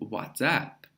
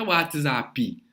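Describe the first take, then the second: First: The word ends cleanly on the P sound. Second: An extra vowel sound follows the final P. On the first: The speaker calls it right. "É o WhatsApp" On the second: The speaker calls it wrong. "Não é WhatsApp"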